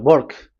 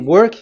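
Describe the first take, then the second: First: It is in an Indian English accent. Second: It begins with a plain English W sound.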